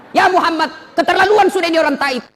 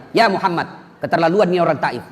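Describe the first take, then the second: First: High, loud outraged cry of Ya Muhammad; angry angel. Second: Said in the usual way. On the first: Acted. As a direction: burst out in fury at what Taif did. Jibril angry at Taif people. (Jibril marah, suara tinggi dan keras)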